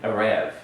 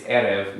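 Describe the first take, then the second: First: Erev as eh-REV; stress on second syllable. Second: Erev as EH-rev; stress on first syllable. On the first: Teacher shows the mistaken accent, second-syllable stress on Erev. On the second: Teacher shows the correct accent, first-syllable stress on Erev. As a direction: lean on the opening E of Erev. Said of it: "you're gonna lean on the first". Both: Shown as a demonstration.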